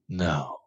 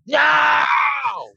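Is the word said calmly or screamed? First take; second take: calmly; screamed. First: It is said calmly and quietly. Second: It is said as a loud scream.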